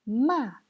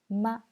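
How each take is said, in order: First: The pitch falls sharply from high. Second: The pitch is short, light and unstressed. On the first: "Quatrième ton"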